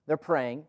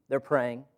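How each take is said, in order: Both takes have the same delivery.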